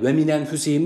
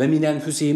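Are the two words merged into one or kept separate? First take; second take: merged; merged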